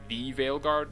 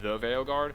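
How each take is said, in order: First: The word 'the' is weighty and emphasized. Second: The word 'the' is light and unstressed. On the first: The group is significant and important. The speaker calls it right. "supposed to be the Veilguard" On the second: The group is just an ordinary thing. The speaker calls it wrong. "not the Veilguard"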